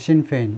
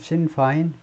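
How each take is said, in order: First: The second syllable rhymes with 'pain'. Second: The second syllable rhymes with 'fine'. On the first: This is the usual Korean way of saying it. "우리말로는 신페인" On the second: This is how it is said in English. "영어로는 신파인"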